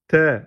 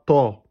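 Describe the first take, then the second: First: The vowel is thin, like 'e'. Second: The vowel is open, like 'a'. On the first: The speaker calls it right. "T et pas ta" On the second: The speaker calls it wrong. "pas ta"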